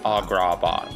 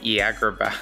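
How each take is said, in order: First: Every vowel is an open, broad 'ah' sound. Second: The vowels are flattened in a Midwestern accent. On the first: "Like it's all ah, ah, ah" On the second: "my mom has a very thick Iowa accent... I imagine it would be like Agrabah"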